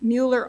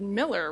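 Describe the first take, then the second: First: The name is said like 'Mueller'. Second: The name is said like 'Miller'. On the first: This is how the name looks when written. "I'm not saying that like they do in Texas" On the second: This is how the locals say the name. "they said Miller"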